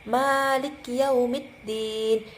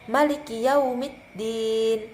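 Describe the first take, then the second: First: The first vowel of Maliki is held long. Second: The first vowel of Maliki is kept short. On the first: This is the usual reading. "Maliki itu biasanya kita baca dengan dua panjangnya dengan dua harokat" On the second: This is the reading of the Khalaf transmission. "riwayat Khalaf ini kita membacanya dengan satu harokat saja"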